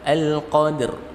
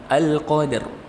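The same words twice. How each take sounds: No difference in how they are said.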